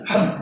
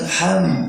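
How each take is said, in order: First: The vowel before the consonant is kept short. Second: The vowel before the consonant is drawn out long. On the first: The speaker calls it right. "tapi ham" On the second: The speaker calls it wrong. "Ham bukan ham"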